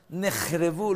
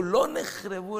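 First: נחרבו said with a rising, questioning tune. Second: לא punched higher and louder; stress on לא. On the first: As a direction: toss out נחרבו as if asking. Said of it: "לא נחרבו, אלא על ביטול הצדקות". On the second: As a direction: hit the word לא hard, then נחרבו. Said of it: "אלא על ביטול הצדקות". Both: Shown as a demonstration.

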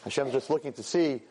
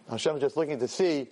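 Both takes have the same delivery.

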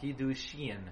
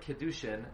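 First: Kiddushin with a clear long ee after the K; correct pronunciation. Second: Kedushin with a short eh sound after the K; wrong pronunciation. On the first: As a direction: say Kiddushin, the K followed by a full i sound. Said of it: "The word is". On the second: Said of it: "you're pronouncing it incorrectly". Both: Shown as a demonstration.

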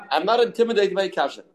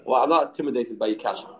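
First: "not" hit high and firm, whole line higher; defiant stress on NOT. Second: Said in the usual way. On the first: Shown as a demonstration. Study partner brushing off a question, stressing "not". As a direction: lean hard on "not", pitched up in defiance. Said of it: "repeated higher, stress on not". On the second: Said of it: "first take, quick and low".

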